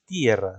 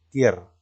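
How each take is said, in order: First: Tierra broken as TI-e-rra, stress on the i; wrong hiatus pronunciation. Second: Said in the usual way. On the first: Shown as a demonstration. Teacher showing students what they don't say, split vowels. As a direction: stretch and stress the i in tierra, apart from the e. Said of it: "pero tú no dices tierra". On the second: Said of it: "dices tierra".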